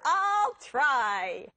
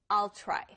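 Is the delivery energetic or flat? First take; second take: energetic; flat. First: It is said with more energy. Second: It is said with little energy. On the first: The speaker calls it right. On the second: The speaker calls it wrong.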